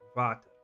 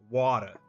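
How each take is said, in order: First: It is said in an Afrikaans accent. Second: It is said in an American accent. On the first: "or in Afrikaans water" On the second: "a lot of like Americans say like water"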